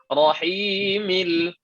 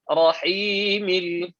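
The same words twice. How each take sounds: The two takes are said the same way.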